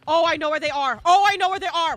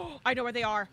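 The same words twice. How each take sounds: First: Shouted louder each time; rising excited yell. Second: Said in the usual way. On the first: Real, not acted. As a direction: call it out loud to the team. Spotting survivors, repeats louder.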